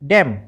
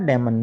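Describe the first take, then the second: First: The word ends without an n sound. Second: The word ends with an n sound. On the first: The speaker calls it right. "एन तो silent है" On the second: The speaker calls it wrong. "डेमन नहीं पढ़ना"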